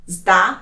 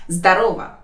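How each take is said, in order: First: «Здо... ро... во» in separate pieces; careful teaching breakdown; syllable by syllable. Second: Said in the usual way. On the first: Shown as a demonstration.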